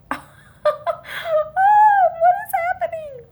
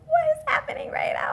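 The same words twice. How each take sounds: First: Very high, loud, drawn-out wail; high-pitched mock cry of shock; acted shock. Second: High, airy whisper of disbelief; acted breathless shock. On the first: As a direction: squeal it slowly in stunned disbelief. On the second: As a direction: whisper it as if stunned, acting it out. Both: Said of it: "I was just shocked".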